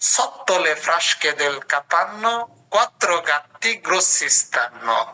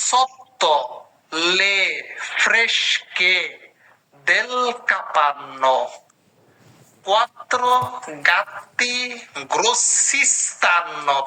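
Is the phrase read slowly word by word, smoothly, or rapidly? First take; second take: smoothly; slowly. First: It is read smoothly with the words together. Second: It is read slowly, one word at a time. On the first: "সবগুলো একসাথে পড়ার চেষ্টা করব" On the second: "আমি একটা শব্দ শব্দ করে ধরাই দিচ্ছি"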